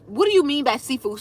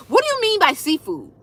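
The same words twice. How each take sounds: First: Said in the usual way. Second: Higher, stressing what, puzzled; "what" pushed up as if the question makes no sense; incredulous question. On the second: Shown as a demonstration. Reading a viewer's question, she asks back puzzled.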